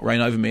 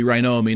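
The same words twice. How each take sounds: First: Said in the usual way. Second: "O'er" run together, like "oh-er"; contracted "O'er". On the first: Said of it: "the title should be Reign O'er Me". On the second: Shown as a demonstration. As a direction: say "O'er" without the v sound. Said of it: "firstly, the title should be".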